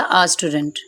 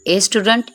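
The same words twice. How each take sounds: First: आ as "uh" before student; correct article sound. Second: ए as "ey" before student; long "ey" in ए student; wrong article sound. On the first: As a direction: say आ openly, not as the letter name. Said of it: "student बोलेंगे". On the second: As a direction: say ए like the letter name. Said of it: "ए नहीं बोलेंगे". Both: Shown as a demonstration.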